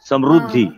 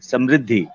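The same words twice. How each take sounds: First: The middle syllable is pronounced 'ru'. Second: The middle syllable is pronounced 'ri'. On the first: This is how people in Maharashtra say it. "यहाँ महाराष्ट्र में उसे बोलते हैं समृद्धि" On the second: This is the standard pronunciation. "जबकि है pronunciation से समृद्धि"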